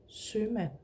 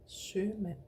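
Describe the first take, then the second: Both takes have the same delivery.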